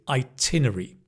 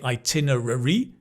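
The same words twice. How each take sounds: First: The 'rary' ending is reduced to 'ri'. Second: The 'rary' ending is fully pronounced. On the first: "the rary becomes ri" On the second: "we don't say itinerary"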